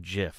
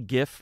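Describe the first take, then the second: First: The word begins with a J sound. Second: The word begins with a hard G sound. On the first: The speaker calls it wrong. "It's not peanut butter" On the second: The speaker calls it right. "It's a G"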